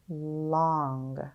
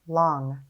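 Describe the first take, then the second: First: Each sound is drawn out slowly and separately. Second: The sounds are blended quickly into one word. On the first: "Tap and stretch" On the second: "Say it fast"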